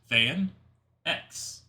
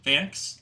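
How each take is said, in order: First: The name is said as two separate parts. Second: The name is run together as one syllable. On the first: The speaker calls it right. "It's pronounced Van X" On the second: The speaker calls it wrong. "that's completely wrong"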